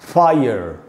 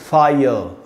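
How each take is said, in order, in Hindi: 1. इसका अंत मुड़ी हुई r ध्वनि से होता है। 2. इसका अंत किसी भी r ध्वनि के बिना होता है। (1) "अमेरिकन इंग्लिश में इसको बोलेंगे फायर" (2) "ब्रिटिश इंग्लिश में बोलेंगे फायर, र नहीं बोलना है"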